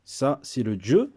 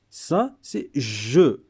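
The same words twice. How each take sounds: First: Said in the usual way. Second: Je drawn out slowly and clearly; slow model pronunciation of je for learners; slow careful je. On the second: Shown as a demonstration. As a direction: say je very slowly, sound by sound. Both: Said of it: "c'est pas comme je, c'est pas pareil".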